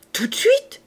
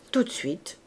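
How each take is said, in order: First: Loud, eager, sharply rising query; amazed question. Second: Said in the usual way. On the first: Acted. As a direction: TOUT DE SUITE shooting up high. Innkeeper amazed, asks if right now.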